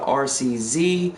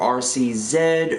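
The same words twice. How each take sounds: First: The last letter is said as zee. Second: The last letter is said as zed.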